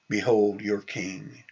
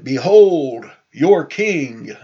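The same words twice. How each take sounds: First: Soft, low, slow statement; hushed, unhurried presentation of someone; quiet announcement. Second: Loud, drawn-out herald's announcement; loud proclamation. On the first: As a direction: say it quietly and slowly, understated. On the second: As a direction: proclaim it slowly and grandly to a crowd. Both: Retold or imitated. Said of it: "he might have said it".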